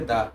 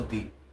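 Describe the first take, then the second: First: The word ends in a short 'uh' vowel. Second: The word ends in a long 'ee' vowel. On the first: "दा है जैसे दा पढ़ते" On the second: "हमने इसको दी बोला हो"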